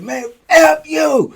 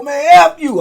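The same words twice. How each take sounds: First: Higher, slow, cracking curse; scared curse. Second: Higher, louder curse back; defiant curse. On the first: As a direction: curse back while terrified. Cursing back, scared. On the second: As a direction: spit it back at the guards. Cursing back at guards. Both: Retold or imitated.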